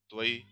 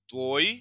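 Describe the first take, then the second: First: त्वई as "tva-EE", ई stressed; two-syllable form. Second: त्वई as a single rising "tvoy"; o gliding into y in त्वई; one-syllable form. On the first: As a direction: reduce o to a in त्वई. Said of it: "यहाँ पे normal ये soft ही है". (त्वई को "त्व-ई" बोलें) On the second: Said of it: "यहाँ पे ये क्रातकय है". (त्वई को "त्वोय" बोलें) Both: Shown as a demonstration.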